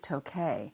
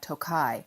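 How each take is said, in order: First: It is said the Hungarian way. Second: It is said the American way. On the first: "In Hungary, they pronounce it Tokay" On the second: "it's pronounced in America Tokai"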